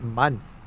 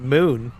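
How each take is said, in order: First: The vowel is a short 'uh' sound. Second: The vowel is a long 'oo' sound. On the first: This is how someone else says it. "Why do you pronounce it mun?" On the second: This is how the speaker says it. "I call it moon"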